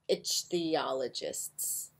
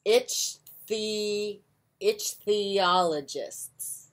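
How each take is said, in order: First: "ichthyologists" repeated quietly and unsure; "ichthyologists" muttered again, doubtful of the sound; soft unsure retry. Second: Sounding out "ichthyologists" slowly, syllable by syllable; "ichthyologists" said slowly as itch-thee-ology-ists; careful sounding out. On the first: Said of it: "I'm probably saying that incorrectly". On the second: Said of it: "I do not know how to say this word". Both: Shown as a demonstration.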